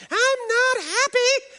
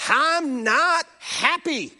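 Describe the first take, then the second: First: Very high, slow wailing "I'm not happy"; mock toddler scream. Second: High, slow whiny pout; mock a cranky toddler; toddler tantrum voice. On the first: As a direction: wail it like a screaming child. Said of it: "we would hear it screaming through the walls". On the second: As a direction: toddler protesting a taken toy, whiny. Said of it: "And they let you know".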